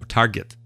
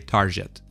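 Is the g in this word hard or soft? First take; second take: hard; soft. First: The g sounds hard, as in get. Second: The g sounds soft, like a j. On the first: The speaker calls it right. "g, just like in get" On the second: The speaker calls it wrong. "because the word target reminds Catalan speakers of tarjeta, they tend to say target"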